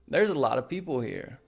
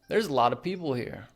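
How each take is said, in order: First: 'A lot of' is reduced to 'a lotta'. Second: 'A lot of' is reduced to 'a lotta'.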